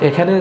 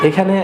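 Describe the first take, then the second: The two takes are said the same way.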